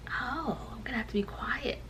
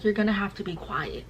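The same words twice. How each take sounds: First: Hushed, sarcastic echo; quiet, incredulous retort; mock compliance. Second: Said in the usual way. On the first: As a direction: whisper the order back in disbelief. Mock echo of nurse's order.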